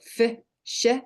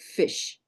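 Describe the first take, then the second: First: It is split into two parts with a break. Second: It is said as one joined syllable. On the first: "So fi, sh" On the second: "or fish"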